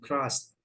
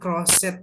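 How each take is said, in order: First: The ending joins into one single syllable. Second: The ending is said as a separate syllable. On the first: The speaker calls it right. "tapi jadi satu langsung crossed" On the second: The speaker calls it wrong. "Bukan crosset ya"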